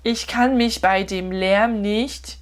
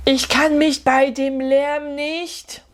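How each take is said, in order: First: Slow repeat of prompt. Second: Slow prompt sentence. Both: Shown as a demonstration.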